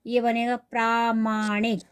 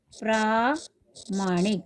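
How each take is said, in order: First: प्रामाणिक said with a long प्रा, not प्रमाणिक; correct form. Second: प्रामाणिक drawn out slowly, long प्रा; slow model word. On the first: Teacher corrects students to प्रामाणिक with a long प्रा. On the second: Teacher repeats प्रामाणिक slowly for the class. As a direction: slowly model प्रामाणिक, each syllable apart. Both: Shown as a demonstration. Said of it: "ये प्रमाणिक नहीं".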